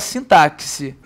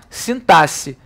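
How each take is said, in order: First: The x is pronounced like ks. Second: The x is pronounced like s. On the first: The speaker calls it wrong. "eu pensava que era sintaxe. É, mas não é não" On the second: The speaker calls it right. "Esse X tem som de quê? De S"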